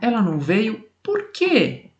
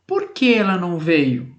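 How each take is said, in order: First: Slow question with a strong, higher "por quê" at the end; strong final por quê. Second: "Por que" said lightly at the start, no special push; gentle, unstressed "Por que" opening the question; mild por que. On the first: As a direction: land hard on "por quê" as the question's punch. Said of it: "ele tem uma entonação de voz diferente". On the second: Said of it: "a forma com que eu falo o porquê, ela é mais branda". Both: Shown as a demonstration.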